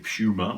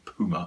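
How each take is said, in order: First: It is said in a British accent. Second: It is said in an American accent.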